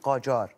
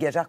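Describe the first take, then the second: First: The name is said with a Persian accent. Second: The name is said with a French accent. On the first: The speaker calls it right. "pour le dire à l'iranienne, on dit Qajar" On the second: The speaker calls it wrong. "on dit Gadjar quand on a l'accent français"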